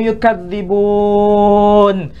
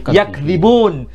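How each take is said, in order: First: The word begins yu- with a doubled dz sound. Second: The word begins yak- with a single dz sound. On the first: It is the Warsh reading used in Morocco. "Dan itu adalah kiroah Warash" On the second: It is the Hafs reading used in Indonesia. "kalau ada orang Indonesia membaca"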